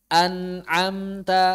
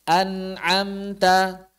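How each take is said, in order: No difference in how they are said.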